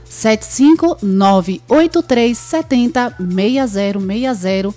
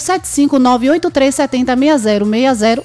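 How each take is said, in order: First: The number is said slowly. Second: The number is said fast.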